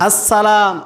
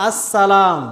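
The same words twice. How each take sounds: Both takes have the same delivery.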